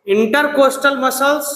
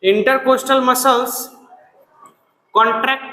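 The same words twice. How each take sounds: First: Drawn-out slow dictation. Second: Slow, drawn-out repeat; slow dictation. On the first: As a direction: spell it out slowly for the class to repeat. (धीरे-धीरे बोलकर लिखवाना) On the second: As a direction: say it slowly again for the class. (धीमी आवाज़ में दोहराना) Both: Shown as a demonstration. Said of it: "बोलो".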